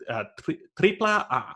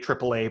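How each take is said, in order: First: The first word ends in an 'ah' vowel. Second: The first word ends in an 'l' sound. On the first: The speaker calls it right. "it's actually Tripla A is actually how it's pronounced" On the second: The speaker calls it wrong. "We always say AAA"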